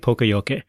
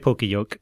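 First: It is said with a mildly Japanese-like pronunciation. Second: It is read with plain English spelling sounds. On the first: The speaker calls it right. "Pronounce it more like the Japanese, sort of like" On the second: The speaker calls it wrong. "don't say poka-yoke because that's really off"

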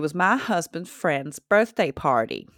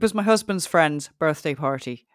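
First: It is spoken in a Southern American accent. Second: It is spoken in an Irish accent. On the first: "I'm going to do a southern accent"

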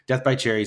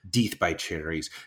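First: The first word has a short e vowel. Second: The first word has a long ee vowel. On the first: "I can't say Deeth. It doesn't sound right" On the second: "I know it's pronounced Deeth"

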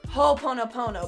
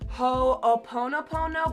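First: The first two O sounds are merged together. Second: The first two O sounds are kept apart.

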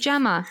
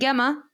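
First: The name begins with a J sound. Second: The name begins with a hard G sound. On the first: This is how people with the name actually say it. "You pronounce it Gemma" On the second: This is how the spelling suggests it is read. "you don't pronounce it Gemma"

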